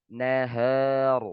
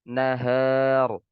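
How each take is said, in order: The two takes are said the same way.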